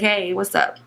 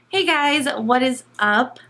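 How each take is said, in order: First: The greeting sounds relaxed and chill. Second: The greeting sounds stiff and robotic.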